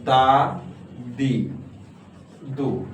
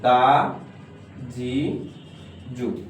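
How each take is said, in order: First: The syllables begin with a d sound. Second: The later syllables begin with j and z sounds. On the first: The speaker calls it wrong. "উচ্চারণ হরকত ছিল হলো দা দি দু" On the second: The speaker calls it right. "এটা না হয়ে উচ্চারণ হয়েছে কি দা জি জু"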